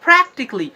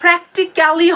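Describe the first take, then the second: First: প্র্যাকটিক্যালি as "PRAK-tik-li"; quick "-kli" ending on প্র্যাকটিক্যালি; correct pronunciation. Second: প্র্যাকটিক্যালি as "prek-ti-ka-li"; full "ka-li" ending on প্র্যাকটিক্যালি; wrong pronunciation. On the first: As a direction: squeeze out the "ka" in প্র্যাকটিক্যালি. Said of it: "হবে কি". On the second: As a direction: pronounce all four syllables of প্র্যাকটিক্যালি. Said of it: "হবে না". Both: Shown as a demonstration.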